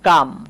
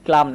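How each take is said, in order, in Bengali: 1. calm শব্দে L নীরব। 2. calm শব্দে L উচ্চারিত হয়। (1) "এটা হচ্ছে কাম" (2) "এটাকে আবার অনেকে ক্লাম উচ্চারণ করে, না ক্লাম না"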